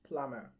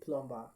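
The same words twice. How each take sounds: First: No B sound is heard in the word. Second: A B sound is heard in the word. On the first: The speaker calls it right. "the letter B here is silent" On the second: The speaker calls it wrong. "Plumber is not the correct pronunciation"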